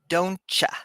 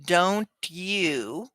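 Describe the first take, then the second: First: The word "you" is reduced to "ya". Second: The word "you" is said in full. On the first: "we say" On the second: "instead of saying"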